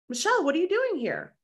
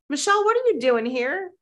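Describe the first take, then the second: First: High, startled "what are you doing here"; surprised greeting. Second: High, delighted "what are you doing here"; surprised greeting. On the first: Colleague spots her at the event, surprised. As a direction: imitate a friend caught off guard. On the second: Producer friend walks by and greets her, surprised. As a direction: play a friend happily spotting her. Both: Retold or imitated.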